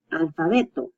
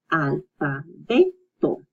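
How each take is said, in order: First: Said in the usual way. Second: "Alfabeto" slowly as al, fa, be, to; syllable by syllable. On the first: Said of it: "then you put it together". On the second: Shown as a demonstration. Teacher breaking down the word for alphabet, "Alfabeto" in slow pieces. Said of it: "And then you put it together".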